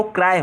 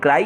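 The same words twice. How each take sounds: First: "क्राई" as kraa-e, gliding off the long aa; actual pronunciation. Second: "क्राई" ending in a distinct long ee; common pronunciation. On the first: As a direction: say "क्राई" like kraay, without a full final ee. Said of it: "actual में वो क्राई होता है". ("क्राई" को क्राय जैसा, आ पर टिकाकर) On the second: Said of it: "generally बोलते हैं". ("क्राई" के अंत में साफ़ बड़ी ई) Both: Shown as a demonstration.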